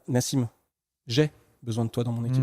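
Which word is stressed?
j'ai. The emphasis falls on "j'ai". The speaker personally is the one in need. "c'est moi qui ai besoin de toi"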